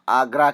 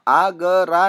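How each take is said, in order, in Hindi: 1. g और r के बीच कोई स्वर ध्वनि नहीं बोली जाती। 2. g और r के बीच एक स्वर ध्वनि बोली जाती है। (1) "हम आगरा कहते हैं" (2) "हम आगरा नहीं कहते हैं"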